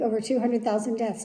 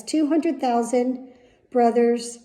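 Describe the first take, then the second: First: Said in the usual way. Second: "hundred" leaned on, slow and a bit louder; slow heavy stress. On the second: Real, not acted. To her viewers about the dead, slow weighty stress. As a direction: drag out "Two hundred thousand" word by word.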